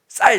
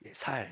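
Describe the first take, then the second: First: The word begins with a tense, hard s sound. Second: The word begins with a plain, soft s sound. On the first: The speaker passes the dialect test. The speaker calls it right. "저는 저는 잘 합니다" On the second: The speaker is from the southern dialect region. The speaker calls it wrong. "쌀 발음이 잘 안 됩니다. 살, 살 이러죠"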